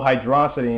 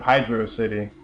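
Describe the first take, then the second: First: Hydrocity run together as one smooth word. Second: Hydro City with a slight break between Hydro and City; Hydro City as two words. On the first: Comparing how people name the Sonic level, Hydrocity as one word. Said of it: "call Sonic three's level Hydrocity instead of". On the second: Comparing how people name the Sonic level, Hydro City split in two. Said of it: "instead of". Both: Shown as a demonstration.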